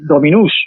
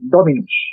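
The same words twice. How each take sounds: First: The stress is on the last syllable. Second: The stress is on the first syllable. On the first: The speaker calls it wrong. "no podemos decir dominus" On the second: The speaker calls it right. "habrá que decir dominus"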